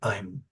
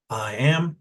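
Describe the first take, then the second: First: It is contracted into one syllable. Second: It is said as two full words. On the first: "I use my fingers to demonstrate contractions" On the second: "I use my fingers to demonstrate contractions"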